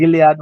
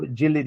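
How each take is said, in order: First: Gilead with a hard G, as in "give"; hard-g pronunciation. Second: Gilead with a soft G, as in "gin"; soft-g pronunciation. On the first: Guest offers host one accepted name, Gilead with hard G. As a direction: say Gilead starting "GIL-", G as in "gift". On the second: Guest offers host the alternative name, Gilead with soft G. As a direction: say Gilead starting with a J sound, "JIL-". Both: Shown as a demonstration. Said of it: "pronunciation doesn't matter as long as".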